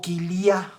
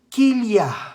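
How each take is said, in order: First: The stress falls on the final syllable. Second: The stress falls before the final syllable.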